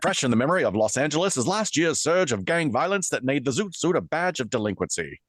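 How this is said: It is read in an old newsreel announcer voice.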